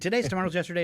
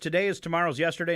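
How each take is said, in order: First: It is said fast. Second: It is said at a normal pace.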